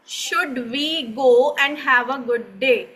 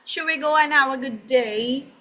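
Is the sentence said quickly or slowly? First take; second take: slowly; quickly. First: It is said slowly, each word clearly separated. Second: It is said quickly, with words run together. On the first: The speaker calls it wrong. "अंग्रेज इसे ऐसे नहीं बोलेगा" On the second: The speaker calls it right. "अंग्रेज इसे बोलेगा"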